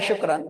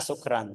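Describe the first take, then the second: First: The word begins with an sh sound. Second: The word begins with a plain s sound. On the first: It means thank you. The speaker calls it right. "harus shin shin" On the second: It suggests being drunk. The speaker calls it wrong. "Tapi sukran itu salah"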